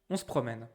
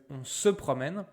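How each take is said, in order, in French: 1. Elle est dite vite, avec 'se' réduit. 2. Chaque syllabe est prononcée en entier. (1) "It sounds very natural, very, you know, fluent, liquid, easy" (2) "He's a bit awkward, so he really says"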